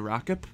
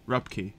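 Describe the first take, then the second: First: The name is said like rock-ip. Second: The name is said like rup-key. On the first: The speaker calls it wrong. "I'm gonna just go out on a limb and say Rockip" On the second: The speaker calls it right. "Darn it. I was in the right direction. But Rupkey"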